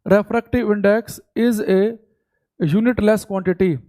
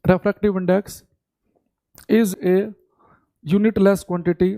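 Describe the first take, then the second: First: Each word spaced out for note-taking; steady classroom dictation pace; slow dictation. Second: Phrase by phrase with long pauses; slow chunked classroom dictation; broken-up dictation. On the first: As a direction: dictate it slowly so they can write. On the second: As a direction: dictate in chunks, waiting for them to write. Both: Shown as a demonstration. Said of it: "तो लिखेंगे".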